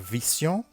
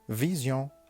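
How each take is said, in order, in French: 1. La consonne du milieu est un son S sifflant. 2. La consonne du milieu est un son Z sonore. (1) "on ne dit pas vision" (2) "mais on dit vision"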